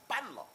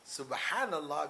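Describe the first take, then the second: First: It is said fast with syllables squeezed out. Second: Every syllable is said clearly and fully. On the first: It is just a sound. The speaker calls it wrong. "Because you want to say it quickly" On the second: It is a meaningful statement of praise. The speaker calls it right. "it's clear what you've said here"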